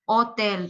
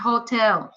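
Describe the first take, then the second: First: The word begins directly with the vowel sound. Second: The word begins with an audible h sound. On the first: The speaker calls it right. "because the H doesn't sound in Spanish" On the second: The speaker calls it wrong. "It's not hotel"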